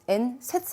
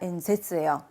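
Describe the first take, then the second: First: The second syllable starts with a voiceless s. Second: The second syllable starts with a voiced z. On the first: The speaker calls it wrong. "연설 발음이 엔세츠 아닙니다" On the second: The speaker calls it right. "탁점 찍어주셔야 되세요"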